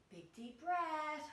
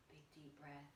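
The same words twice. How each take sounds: First: Louder, higher, drawn-out words; big breath cue. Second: Much softer, lower voice; soft breath cue. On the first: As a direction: stretch it out loud like a big inhale. Closing breaths of sun salutation. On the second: Teacher settling children after the salutation, hushed and low. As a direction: let it sink down like an exhale. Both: Shown as a demonstration.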